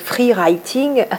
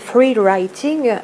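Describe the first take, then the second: First: It is said with a French accent. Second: It is said with an English accent. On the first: "avec la prononciation française" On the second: "avec l'accent anglais"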